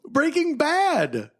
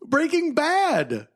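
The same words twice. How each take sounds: First: The stress is on the word Bad. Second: The same.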